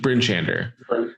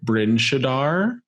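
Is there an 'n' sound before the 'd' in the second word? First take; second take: yes; no. First: The second word has an n before d. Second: The second word has no n before d. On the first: The speaker calls it right. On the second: The speaker calls it wrong.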